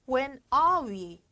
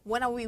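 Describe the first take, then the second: First: The phrase is said slowly without an r. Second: The phrase is said fast and run together. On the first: "영국이나 호주 발음에서는 are 발음에 r자가 빠져요" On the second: "빨리 가면"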